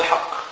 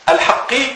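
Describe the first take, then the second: First: The word ends with a short u vowel. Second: The word ends with a short i vowel. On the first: The word describes the guardianship as true. "وقرأت بالرفع" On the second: The word describes God as the truth. "الحق قرأت بالكسر"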